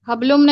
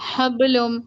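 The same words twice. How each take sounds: First: The b is plain without an echoing bounce. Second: The b has an echoing bounce. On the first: The speaker calls it wrong. "हबलुम नहीं" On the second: The speaker calls it right. "कलकला होगा ना"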